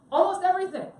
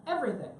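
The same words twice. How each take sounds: First: "Almost" punched high and loud, "everything" falling; stress on almost. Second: Said in the usual way. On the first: Shown as a demonstration. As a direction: hit "Almost" hard, then let "everything" drop. Corrects himself with emphasis.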